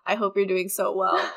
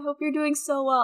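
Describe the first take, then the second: First: The voice sounds flat, annoyed and irritated. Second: The voice sounds bright, warm and cheerful. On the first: The speaker is annoyed at re-recording the message. "and then the second one's just like" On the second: This is the first recording of the message. "Like my first tone's like"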